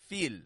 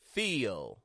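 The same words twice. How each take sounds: First: The vowel runs straight into the L without glide. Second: A y glide links the vowel to the L. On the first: The speaker calls it wrong. "Notice I'm not going just feel" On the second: The speaker calls it right. "there's this y that connects the two"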